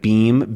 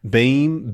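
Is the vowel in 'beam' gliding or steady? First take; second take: steady; gliding. First: The vowel stays high and steady throughout. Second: The vowel starts lower and glides upward. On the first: "instead of" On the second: "can sort of start a little bit lower and become beam"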